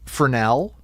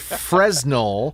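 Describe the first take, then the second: First: The S sound is left out. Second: The S sound is pronounced. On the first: The speaker calls it right. "The S is silent" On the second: The speaker calls it wrong. "I am intentionally mispronouncing it"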